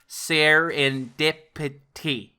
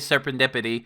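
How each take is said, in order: First: It is said slowly with every syllable enunciated. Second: It is said casually in the speaker's accent. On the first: "I have to enunciate it for serendipity" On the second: "I say serendipity because that's my accent"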